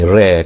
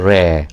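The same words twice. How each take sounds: First: The vowel sounds like an English 'ray' vowel. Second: The vowel is a light Arabic a tilted toward e. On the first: The speaker calls it wrong. "macam bahasa bahasa orang putih, re kan. Ha, bukan bukan re" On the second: The speaker calls it right. "tapi re"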